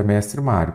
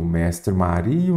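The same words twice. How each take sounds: First: "Mário" stressed on the first syllable, MÁ-rio; correct stress. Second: "Mario" drawn out as ma-RI-o; slow "mestre Mario" with a long stressed I; wrong stress. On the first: Teacher giving the correct name, "Mário" stressed on MÁ. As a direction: say "Mário" as MÁ-rio, short ending. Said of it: "Correto é mestre Mário". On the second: Teacher showing the error, "Mario" stretched on RI. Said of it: "não. Correto é mestre Mário". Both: Shown as a demonstration.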